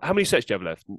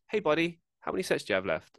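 First: It is asked in a curt, rude tone. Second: It is asked in a friendly, polite tone.

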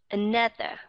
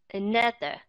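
No difference in how they are said.

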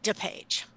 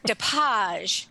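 First: The name is pronounced the plain English way. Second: The name is pronounced the French way.

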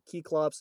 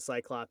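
First: The word begins with a 'kee' sound. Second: The word begins with a 'sigh' sound. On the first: This is the original Greek pronunciation. "if we were to pronounce it correctly, it'd be like Keyclops" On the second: This is the usual English pronunciation. "I'm just going to stick with Cyclops"

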